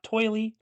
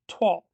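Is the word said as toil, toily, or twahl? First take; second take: toily; twahl. First: It sounds like oil with an added ee ending. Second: It sounds like twahl, one syllable. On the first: The speaker calls it wrong. "not toily" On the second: The speaker calls it right. "the proper pronunciation is Toile, like T W A H L"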